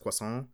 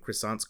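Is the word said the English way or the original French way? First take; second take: French; English. First: It is said with a French pronunciation. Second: It is said with an English pronunciation. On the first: The speaker calls it right. "I'm a linguistic originalist" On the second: The speaker calls it wrong. "We should be pronouncing"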